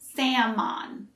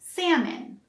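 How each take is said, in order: First: The second syllable has an O sound. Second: The second syllable sounds like min. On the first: The speaker calls it wrong. "We don't say salmon" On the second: The speaker calls it right. "more like min instead of an O sound"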